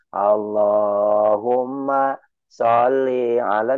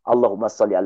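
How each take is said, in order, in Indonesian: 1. Dibaca dengan cara yang tenang dan dipanjang-panjangkan. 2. Dibaca dengan nada keras seperti perang. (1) "jangan ... Tidak begitu" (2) "Pakai nada perang"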